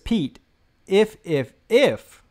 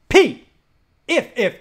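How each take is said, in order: First: The ifs are said at normal volume. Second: The ifs are said loudly, like yelling.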